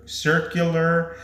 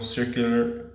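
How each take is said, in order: First: Circular stretched slowly and pitched higher; drawn-out repeat. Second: Said in the usual way. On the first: Real, not acted. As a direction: linger on circular, lifting it up. Repeats the word, second drawn out.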